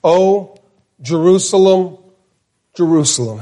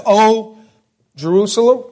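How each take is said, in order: First: Sorrowful double call, dropping at the end; mourning a city by name; lament. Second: Jerusalem asked with a high rising tune; lamenting call that rises. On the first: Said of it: "He says it twice". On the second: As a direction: lift Jerusalem up like a question. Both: Shown as a demonstration.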